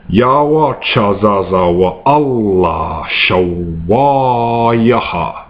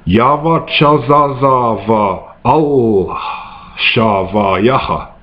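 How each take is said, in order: First: The repeated consonant is pronounced as a W. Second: The repeated consonant is pronounced as a V. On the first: This is how some people say it. "the pronunciation that is with the W" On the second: This is the earliest, simplest form of the language. "I'll pronounce the first pronunciation with the V"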